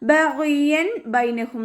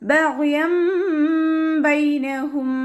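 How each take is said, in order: First: The first word ends with a plain n sound. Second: The first word ends with a nasal m sound. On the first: "എന്നാണ് അവിടെ ശരിക്ക് വരുന്നത്" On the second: "തെൻവീനിനെ മീമാക്കി മാറ്റി മറിക്കുമ്പോൾ"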